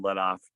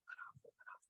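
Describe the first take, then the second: First: Said in the usual way. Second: Barely audible unvoiced whisper. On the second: Dad whispering to son to ease his drawn bow. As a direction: hiss it with no voice at all. Coaching son silently in stand.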